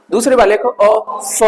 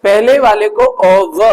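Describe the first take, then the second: First: "ओ फ" said slowly with a clear f; pronunciation demo. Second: "ओ व" drawn out slowly, half v; pronunciation demo. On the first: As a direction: stretch out "ओ फ" carefully. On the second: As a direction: say "ओ व" slow and deliberate. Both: Shown as a demonstration. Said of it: "दोनों को बोला कैसे जाता है".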